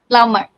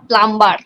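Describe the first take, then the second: First: The b sound is left silent after the m. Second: The b sound is pronounced after the m. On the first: The speaker calls it right. "It's a plumber" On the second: The speaker calls it wrong. "It's not a plumber"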